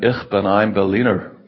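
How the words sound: It is said with an American English accent.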